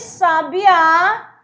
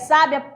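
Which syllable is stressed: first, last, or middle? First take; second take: last; first. First: The stress is on the last syllable. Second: The stress is on the first syllable. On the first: "marcando uma palavra oxítona, que a posição está na última, última sílaba" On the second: "está marcado na primeira sílaba"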